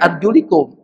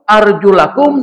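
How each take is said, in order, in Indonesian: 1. Vokal setelah arjul adalah i. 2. Vokal setelah arjul adalah a. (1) "bukan pakai fathah, tapi pakai kasrah" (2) "Itu membacanya fathah"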